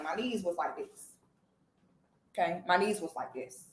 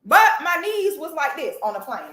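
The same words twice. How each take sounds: First: Softer, lower repeat of My knees was like this; quiet aside. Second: Said in the usual way. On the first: Real, not acted. Repeating to the audience My knees was like this, softer and lower. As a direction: drop to a soft, low murmur for My knees was like this.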